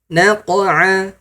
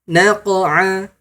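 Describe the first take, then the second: Both takes have the same delivery.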